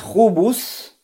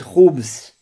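First: A vowel is heard between b and s. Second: No vowel is heard between b and s. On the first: "говорить хубус" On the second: "Но можно ставить и сукун"

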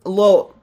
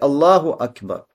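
First: It is clipped, with sounds swallowed and unclear. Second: It is said clearly at an even pace. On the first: The speaker calls it wrong. "произносить его так, что человек глотает звуки" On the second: The speaker calls it right. "нужно говорить четко, не сокращать, не глотать звуки"

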